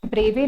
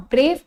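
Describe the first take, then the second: First: ब्रेवे, final e voiced as "ay"; wrong reading of ब्रेव. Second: Said in the usual way. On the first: Shown as a demonstration. Teacher contrasting the misreading for students, ब्रेवे with its silent e sounded. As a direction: add a second vowel at the end, ब्रेवे. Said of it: "ब्रेवे नहीं पढ़ते हैं". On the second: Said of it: "फिर से पढ़कर बताती हूँ".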